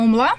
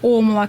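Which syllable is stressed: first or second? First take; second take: second; first. First: The stress is on the second syllable. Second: The stress is on the first syllable. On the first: "правильно омла" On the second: "когда ударение на первый слог"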